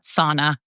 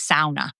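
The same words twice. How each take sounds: First: It is pronounced the American way. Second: It is pronounced the Scandinavian way. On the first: The speaker calls it wrong. "not sauna" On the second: The speaker calls it right. "in Scandinavia, it is definitely sauna"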